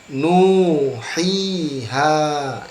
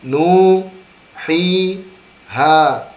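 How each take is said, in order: First: The syllables are joined smoothly without breaks. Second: The syllables are said separately with breaks. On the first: The speaker calls it right. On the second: The speaker calls it wrong.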